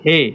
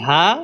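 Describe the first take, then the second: First: The name ends with an 'e' vowel. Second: The name ends with an open 'a' vowel. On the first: This is the Urdu name of the letter. "উর্দুতে পড়তেছি হে" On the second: This is the Arabic name of the letter. "আরবিতে পড়ছি হা"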